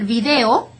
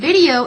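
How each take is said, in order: First: The word is pronounced with Spanish sounds. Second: The word is pronounced with English sounds. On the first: "el video" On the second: "exactly the same spelling, just a little different pronunciation"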